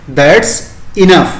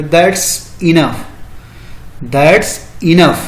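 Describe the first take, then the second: First: Said in the usual way. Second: Very slow, each word of "That's enough" drawn out; slow demo phrase. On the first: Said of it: "वहाँ क्या बोलेंगे". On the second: Shown as a demonstration. Teacher modelling the English reply for students, very slow. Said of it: "तो उसको English में बोलेंगे".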